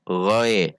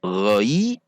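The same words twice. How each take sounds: First: "ghai" as "gho-e", falling; wrong e ending. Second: "ghai" as "gho-ii", rising; wrong i ending. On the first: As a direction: end "ghai" on an open e. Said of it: "tidak dibaca e". ("ghai" dibaca dengan e) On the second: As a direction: end "ghai" on a clear rising i. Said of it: "tidak dibaca i". ("ghai" dibaca dengan i) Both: Shown as a demonstration.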